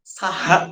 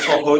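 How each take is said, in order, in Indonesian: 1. Kedua vokal diucapkan sebagai 'a' terbuka. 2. Kedua vokal diucapkan sebagai 'o' bulat. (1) "saha itu pakai bahasa berarti itu dialeknya Sunda" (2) "Kalau soho itu pasti orang Jawa itu"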